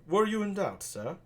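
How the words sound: It is spoken in a British accent. "I'm actually gonna do a British accent for Benedict"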